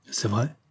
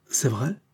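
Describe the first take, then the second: First: Softly incredulous question, rising at the end. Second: Mildly surprised question, rising at the end; astonished. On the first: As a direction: ask it quietly, in mild disbelief. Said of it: "dit l'autre, incrédule". (doucement incrédule) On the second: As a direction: ask it with quiet astonishment. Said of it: "demanda-t-il étonné". (légèrement étonné) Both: A narrator's reading.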